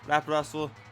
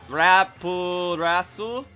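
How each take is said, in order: First: The name is said fast, syllables run together. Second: The name is said slowly, syllable by syllable. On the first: "you say it quickly enough" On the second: "It's actually written as"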